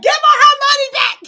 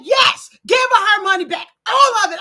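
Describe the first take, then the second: First: High, loud, fast yell; yelling at the screen. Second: A louder, insistent retold demand; firm demand. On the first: Retold or imitated. Host yelling at the TV during the show. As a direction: shout it like you're at the TV, hyped up. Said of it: "I was yelling at the screen". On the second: Retelling the woman's firm demand to the viewers. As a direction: say it like you mean business, but this is her line and not yours yet. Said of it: "She said".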